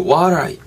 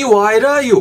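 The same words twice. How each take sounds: First: "why are you" blurred into "why-er-you"; reduced linking. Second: "why are you" as a high, tapped "why-ra-you"; odd linking. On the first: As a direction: let "are" melt away inside "why are you". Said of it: "요런 식으로까지 연음이 될 수". ("why are you"를 are 약하게 자연스럽게 연음) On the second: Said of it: "이거 좀 이상하고". ("why are you"를 높은 '와이라유'로 과장해 연음) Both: Shown as a demonstration.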